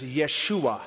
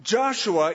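First: "Yeshua" said the Hebrew way, yeh-SHOO-ah; Hebrew pronunciation. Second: "Joshua" said the English way, JOSH-oo-uh; English pronunciation. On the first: Preacher giving the Hebrew name of Joshua, Hebrew pronunciation of "Yeshua". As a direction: say "Yeshua" with a Y opening and stressed SHOO. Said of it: "The Hebrew pronunciation is Yeshua". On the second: Preacher contrasting English and Hebrew names, English pronunciation of "Joshua". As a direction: say "Joshua" with an English J and stressed first syllable. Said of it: "Joshua is the English pronunciation".

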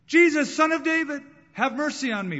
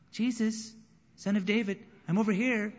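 First: Desperate high shout, calling for help; a blind beggar crying out to Jesus, loud and high. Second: Politely raised, half-hearted call; a beggar calling to Jesus, meek and unsure; timid call. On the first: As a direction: cry it out to be heard over a crowd. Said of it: "But he cried out all the more". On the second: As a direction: ask meekly to be noticed. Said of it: "It wasn't". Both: Retold or imitated.

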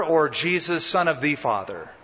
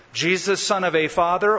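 First: "the" said as a full "thee" in "the father"; stress on THE. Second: "a" said as a full "ay" in "a father"; stress on A. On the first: Preacher posing the crowd's second choice, stress on "the". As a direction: lean on "the" as "thee", falling to a close. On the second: Preacher posing the crowd's first choice, stress on "a". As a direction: lean on "a" as "ay", voice left hanging up. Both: Shown as a demonstration.

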